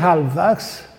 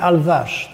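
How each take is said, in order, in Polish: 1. Nazwisko zaczyna się od wymawianego H. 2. Nazwisko zaczyna się bez dźwięku H. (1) "Po polsku mówi się Halbachs, tak się przyjęło to wymawiać" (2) "po francusku, po angielsku mówi się Alwasz ... we francuskim H się nie wymawia"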